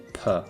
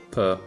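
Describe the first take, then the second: First: The p is released with a puff of air. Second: The p is released without a puff of air. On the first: The speaker calls it wrong. "In English, p, t, and k are oftentimes very breathy" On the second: The speaker calls it right. "pronounced the way you would expect them"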